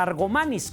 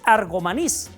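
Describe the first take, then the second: First: The stress is on the second-to-last syllable. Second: The stress is on the last syllable. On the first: The speaker calls it wrong. "con acento en la A, Argomanis, como si fuera una palabra grave" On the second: The speaker calls it right. "en ningún momento lleva acento en la A, de tal suerte que la pronunciación no es Argomanis, es Argomanís"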